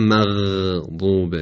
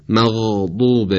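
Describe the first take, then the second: First: مغضوب slow with thin vowels; مغضوب said the wrong light way; wrong light form. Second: مغضوب slow with heavy vowels; مغضوب said dark and full; correct isti'la. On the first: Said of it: "و نه". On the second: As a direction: raise the tongue through مغضوب. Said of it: "و نه مغضوب". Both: Shown as a demonstration.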